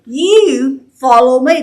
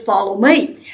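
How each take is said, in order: First: Slow pointed order with "You" hit first; emphatic command. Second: Said in the usual way. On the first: Shown as a demonstration. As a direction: stress on "You", slow and deliberate. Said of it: "he says it very emphatically". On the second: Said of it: "Jesus just simply says".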